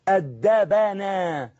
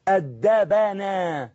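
First: The consonant before 'na' takes an 'a' vowel. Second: The consonant before 'na' takes an 'a' vowel.

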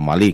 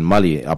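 First: The stress is on the last syllable. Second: The stress is on the first syllable.

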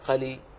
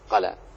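First: The word ends with an 'i' vowel. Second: The word ends with an 'a' vowel. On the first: The speaker calls it wrong. "أسمع بعض الناس ينطقون بها قلي، ولا أراها" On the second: The speaker calls it right. "فأولى لام ومفتوح أولى قلا أولى"

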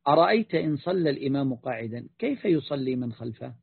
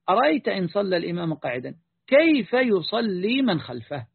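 First: It is asked as a sincere, inquiring question. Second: It is asked as a disapproving, rhetorical objection. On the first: The speaker genuinely wants to know the answer. "على وجه السؤال أنت ستقول هكذا" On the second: The speaker implies that praying behind him is not valid. "وإذا كنت تريد أن تنبه أن هذا لا يصلح فتقول"

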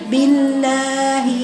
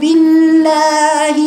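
First: The word is said faintly, with weak sounds. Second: The word is said with a strong, full voice. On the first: The speaker calls it wrong. "طول ما تقول لفظ الجلاله تقولي بالله؟ ... ما بتجيبيش حروف صحيحه" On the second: The speaker calls it right. "قوه بصوت"

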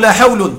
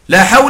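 First: The noun ends with a u vowel. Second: The noun ends with a short a vowel. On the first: The word la does not govern the noun. "والرفع" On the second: The word la governs the noun. "جاز في النكرة الأولى الفتح"

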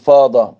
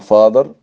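First: The word ends without an r sound. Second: The word ends with an r sound. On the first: "بريتش" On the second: "الامريكاني يقولوا"

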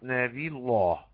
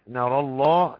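First: The r is light and the l heavy. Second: The r and the l are both heavy. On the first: "ترقيق تفخيم" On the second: "تفخيم تفخيم"

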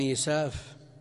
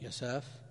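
First: The name begins with a 'yi' sound. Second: The name begins with a 'ya' sound. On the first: "هكذا ضبطه الحافظ بن حجر بالتقريب" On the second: "وضبطه بعضهم بالفتح"

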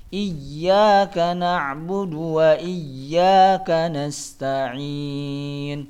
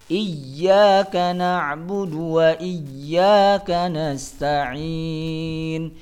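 No difference in how they are said.

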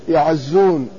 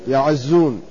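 Both takes have the same delivery.

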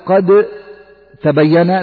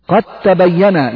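First: The d is pronounced separately before the t. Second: The d is merged into the following t. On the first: The speaker calls it wrong. "لا تقول" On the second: The speaker calls it right. "لأن الدال أدغمت في التاء"

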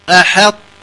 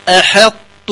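No difference in how they are said.

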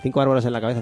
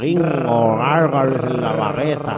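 First: The phrase is said quickly. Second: The phrase is said slowly. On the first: "no lo digas tan rápido" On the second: "Lo puedo decir más lento y mucho peor"

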